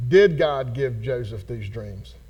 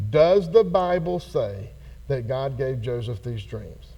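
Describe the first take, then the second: First: Slow, lower question with "Did" stressed first. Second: Slow, lower question with "the Bible" weighted; stress on the Bible. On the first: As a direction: open with a weighted "Did". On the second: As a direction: lean on "the Bible" in "Does the Bible say". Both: Shown as a demonstration. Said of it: "I'm gonna ask you a different question".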